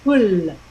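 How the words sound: It ends in a light Italian-style L.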